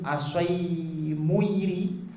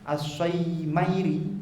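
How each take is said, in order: First: The vowel after the m is u. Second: The vowel after the m is a. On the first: This reading is rare. "wa qila bi dhammil mim ... wa huwa gharib" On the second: This is the usual reading. "bi fathis shad wal muhmalah wal mim"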